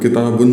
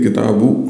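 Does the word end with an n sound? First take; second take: yes; no. First: The word ends with an n sound. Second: The word ends on a short u vowel. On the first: The noun is indefinite. The speaker calls it wrong. "यहाँ पे किताबुन नहीं है" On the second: The noun is possessed by the next word. The speaker calls it right. "सिर्फ एक पेश होगा"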